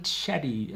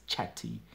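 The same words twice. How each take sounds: First: "chatty" with the t tapped like a d; US pronunciation. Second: Said in the usual way. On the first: Shown as a demonstration. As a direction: say "chatty" as "chaddy", the American way. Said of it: "more like that". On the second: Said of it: "I'm speaking in this sort of accent".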